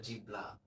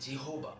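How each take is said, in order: First: The middle is said as b followed by l. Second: The middle is said as h, vowel o, then b. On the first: "আরো বিশ্রী ভাবেও বলে, অনেকে বলে জিবলা" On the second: "অনেকে বলে জিহোবা"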